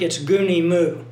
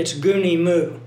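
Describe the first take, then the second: First: It uses the academic classroom Greek pronunciation. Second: The same.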